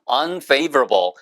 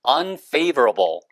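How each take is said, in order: The two takes are said the same way.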